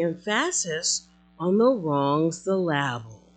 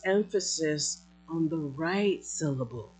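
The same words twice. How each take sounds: First: "emphasis" and "syllable" stressed on their second syllables; deliberately misplace the stress: em-PHA-sis, syl-LA-ble; jokey second-syllable stress on "emphasis" and "syllable"; stress on wrong syllables. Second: "emphasis" and "syllable" stressed on their first syllables; measured, first-syllable stress on "emphasis" and "syllable"; stress on right syllables. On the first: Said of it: "putting emphasis on the wrong syllable". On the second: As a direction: place the stress properly: EM-pha-sis, SYL-la-ble. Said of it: "place emphasis on the right syllable".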